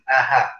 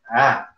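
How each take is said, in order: First: The second hamza is replaced by a clear h. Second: The second hamza is softened between glottal and vowel. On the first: The speaker calls it wrong. "itu itu salah besar ya" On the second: The speaker calls it right. "antara hamzah dan alif bunyinya gimana?"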